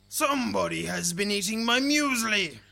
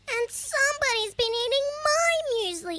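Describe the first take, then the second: First: It is said in a big, deep growly voice. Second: It is said in a little, high squeaky voice.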